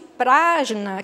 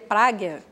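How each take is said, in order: First: It is said with a Portuguese pronunciation. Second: It is said with an Indian pronunciation. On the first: "que a gente fala em português" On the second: "em sânscrito com sotaque índio, como seria, é falado hoje em dia"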